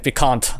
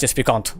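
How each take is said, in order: First: Piquant in a North American accent, pee-KANT with a flat a. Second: Piquant said the French way, pee-KAHN with a nasal vowel; French pronunciation. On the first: Streamer contrasting North American with French, North American. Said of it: "North American accent". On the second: Streamer showing chat the French version, French. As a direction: give piquant its plain French sound. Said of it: "Versus, like, in French". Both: Shown as a demonstration.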